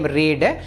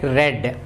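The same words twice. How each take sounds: First: The word rhymes with bead. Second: The word rhymes with bed. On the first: It is the present tense. "The spelling is same" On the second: It is the past tense. "when you speak in the past time or past tense, uh, you have to pronounce it like read"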